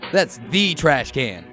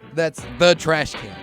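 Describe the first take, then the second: First: The word 'the' is said with strong emphasis. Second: The word 'the' is said plainly, without emphasis. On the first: It is a very important trash can. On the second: It is just an ordinary trash can.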